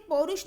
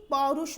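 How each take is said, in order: First: पौरुष with close "o", as porush; mispronounced पौरुष. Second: पौरुष with open "au", as paurush; correct पौरुष. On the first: Teacher rejects the misspelling, पौरुष said as porush. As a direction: round the first vowel of पौरुष to o. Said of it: "पौरुष नहीं". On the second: Teacher gives the right word, पौरुष as paurush. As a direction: open the first vowel of पौरुष. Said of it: "पौरुष होता है". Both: Shown as a demonstration.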